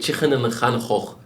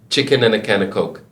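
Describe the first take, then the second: First: It is said in a Liverpool accent. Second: It is said in a standard British accent. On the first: "they say" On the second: "They don't say"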